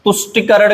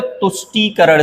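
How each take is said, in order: First: तुष्टिकरण with short i, tush-ti-karan; wrong pronunciation. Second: तुष्टिकरण with long ee, tush-tee-karan; correct pronunciation. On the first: Teacher showing the mistake, तुष्टिकरण said with short ti. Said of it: "गलत है". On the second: Teacher correcting it, तुष्टिकरण said with long tee. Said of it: "सही है". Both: Shown as a demonstration.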